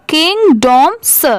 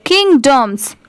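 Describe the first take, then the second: First: किंगडॉम्स slowly split as king, dom, sa; sounded out in parts. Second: Said in the usual way. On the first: Shown as a demonstration. Teacher showing the added s, किंगडॉम्स slowly in three parts. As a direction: separate the final s sound in किंगडॉम्स. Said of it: "स की sound". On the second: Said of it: "तो ये क्या हो जाएगा".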